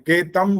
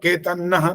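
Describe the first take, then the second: First: The nasal is said as an m sound. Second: The nasal is said as a doubled n sound. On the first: "इसको दोनों तरह से बोल सकते हैं, केतम बोल सकते हैं" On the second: "और केतन्नह भी बोल सकते हैं। ना आधा आ जाएगा"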